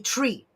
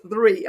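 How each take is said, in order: First: The word starts with a plain t sound. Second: The word starts with a th sound.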